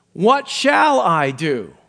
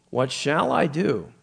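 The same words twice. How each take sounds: First: "shall" leaned on, slow and louder; slow down and hit "shall" hard; stress on shall. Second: "I" is the peak word, said slowly; stress on I. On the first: Preacher showing the emphasis the Lord heard in the question. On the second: Preacher replaying the ruler's question with weight on himself. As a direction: put the weight on "I" in "What shall I do". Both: Shown as a demonstration. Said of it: "the Lord heard the emphasis".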